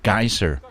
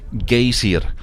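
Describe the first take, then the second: First: The word is said with an American pronunciation. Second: The word is said with an Icelandic pronunciation. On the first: The speaker calls it wrong. "don't pronounce geyser with an American accent" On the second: The speaker calls it right. "It's pronounced geysir, I think, if you want to impress the locals"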